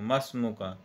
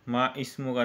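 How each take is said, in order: First: The initial vowel is dropped, linking the words. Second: The initial vowel of the second word is sounded. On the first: The speaker calls it right. "या इसको पढ़ेंगे मस्मु का" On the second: The speaker calls it wrong. "माँ इस्मु का नहीं पढ़ेंगे"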